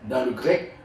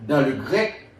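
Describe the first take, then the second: The two takes are said the same way.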